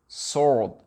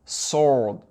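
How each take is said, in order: First: The W sound is left out. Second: The same.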